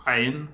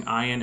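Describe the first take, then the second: First: "ayin" opened with a throat consonant; ayin with guttural. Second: Said in the usual way. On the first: Shown as a demonstration. Host demonstrating reconstructed Hebrew, guttural "ayin". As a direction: start "ayin" on the Arabic throat sound. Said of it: "with the uh sound". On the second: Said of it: "pronouncing ayin as ayin".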